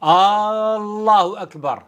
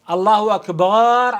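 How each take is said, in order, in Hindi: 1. Allahu का पहला स्वर लंबा खींचा जाता है। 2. Akbar में b की आवाज़ लंबी खींची जाती है। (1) "अल्लाह के लफ्ज का जो पहला हुर्फ है, हमजा या अलिफ, आप उसको अगर खींचते हैं" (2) "ये बा को उसने खासा खींच दिया है।"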